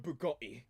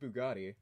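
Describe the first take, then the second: First: The T sound in the middle is dropped. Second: The T sound in the middle is clearly pronounced.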